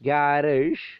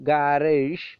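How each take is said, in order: The two takes are said the same way.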